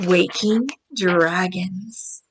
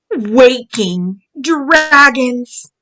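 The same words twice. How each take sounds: First: "Waking dragons" said softly and low; soft title read. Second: Waking dragons, drawn out slowly; slow title read. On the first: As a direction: hush it like a secret title. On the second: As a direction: stretch "dragons" out like a storybook title. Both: Shown as a demonstration.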